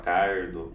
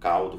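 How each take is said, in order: First: The consonant before the d is an R. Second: The consonant before the d is an L. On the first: This is how caipira speakers say the word. "fala cardo" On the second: This is the standard way of saying the word. "Ao invés de falar com caldo"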